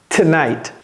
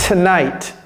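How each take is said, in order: The two takes are said the same way.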